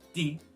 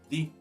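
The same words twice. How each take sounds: First: The word begins with a d sound. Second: The word begins with a soft th sound.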